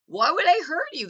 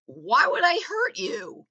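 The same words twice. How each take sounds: First: "I" hit high and louder, falling after it; mock normie, stress on I. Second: "would" stretched and falling, slow and higher; mock normie, stress on would. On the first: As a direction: punch the "I", incredulous normie. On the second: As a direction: lean on "would", a puzzled normie asking slowly. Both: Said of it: "That's how a middle class normie thinks".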